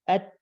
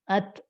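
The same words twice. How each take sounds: First: The final consonant is held briefly without bouncing. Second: The final consonant is released quickly with a bounce. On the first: The speaker calls it right. "Kalau ta sebaliknya, tahan sebentar dulu. Agar gak memantul" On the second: The speaker calls it wrong. "Jadi kalau ta dipantulkan salah begini"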